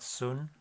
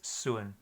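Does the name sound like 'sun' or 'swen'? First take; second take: sun; swen. First: It rhymes with English 'fun', no glide. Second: It has a 'w' glide and an 'e' vowel. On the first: The speaker calls it wrong. "it's not Sun" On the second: The speaker calls it right. "it's Suen"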